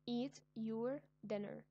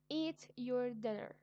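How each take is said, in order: First: Said in the usual way. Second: Put-on loud, slow, firm order to a child; slow, loud command. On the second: Shown as a demonstration. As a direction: tell them to eat, no arguing. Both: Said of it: "It is an order".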